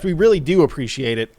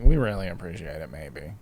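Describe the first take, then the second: First: It sounds sincere, as if truly meant. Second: It sounds half-hearted, as if barely meant.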